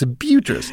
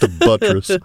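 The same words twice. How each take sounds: First: It is said in an exaggerated posh, fancy voice. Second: It is said in a plain, ordinary voice. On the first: The word is treated as something refined and elevated. "Pinkies up" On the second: The word is treated as nothing special. "No, it's just a buttress"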